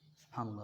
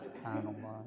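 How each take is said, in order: First: The word is said quickly, rattled off. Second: The word is said slowly and deliberately. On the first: The praise is rushed without reflection. The speaker calls it wrong. "orang yang zikirnya cepat" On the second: The praise is felt and reflected on. The speaker calls it right. "Jadi pelan, harus pelan"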